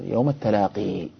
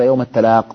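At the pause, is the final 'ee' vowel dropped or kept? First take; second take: kept; dropped. First: The word ends with a long final 'ee' vowel. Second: The word ends without the final 'ee' vowel. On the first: This is a minority reading at the pause. "ابن كثير وقراءته أيضا موجودة" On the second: This is the majority reading at the pause. "الجمهور وقفوا عليها بحذف الياء"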